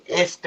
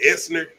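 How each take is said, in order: First: Esther said cleanly as Ess-ter; Esther, plain s then t; correct Esther. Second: Esther said like Esnur, extra N before the er; Esther with an N sound. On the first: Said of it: "There's no E". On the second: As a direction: Esther with a sneaked-in N. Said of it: "You putting the N in there". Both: Shown as a demonstration.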